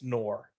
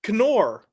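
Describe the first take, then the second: First: The initial K sound is silent. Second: The initial K sound is pronounced. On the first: The speaker calls it right. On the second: The speaker calls it wrong.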